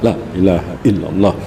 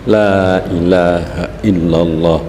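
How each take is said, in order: First: The phrase is said at a quick pace. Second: The phrase is said at a slow, careful pace.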